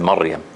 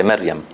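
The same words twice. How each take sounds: First: Maryam with a strong, heavy r. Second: Maryam with a soft, light r, slang style. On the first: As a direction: give Maryam a full, heavy ra, not the slang one. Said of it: "find it easier to say than". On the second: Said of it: "We make it soft". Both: Shown as a demonstration.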